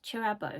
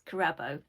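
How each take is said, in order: First: The name begins with a ch sound. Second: The name begins with a k sound. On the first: This is how the author says it. "I think it's pronounced Chirabo" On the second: This follows the spelling. "it's written with a K, so I read it as Kirabo"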